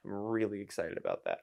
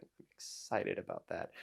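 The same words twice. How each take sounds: First: Said in the usual way. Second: Low unvoiced whisper, flat; whispered, ironic excitement; deadpan whisper. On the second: Real, not acted. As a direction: mutter the excitement without any energy.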